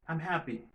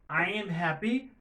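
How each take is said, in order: First: I am is shortened into one syllable. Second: I am is said as two full words. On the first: This is the faster form used in speech. "on just dit am" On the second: This is the form used in writing. "Au lieu pour nous dire I am"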